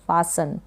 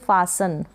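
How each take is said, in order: Both takes have the same delivery.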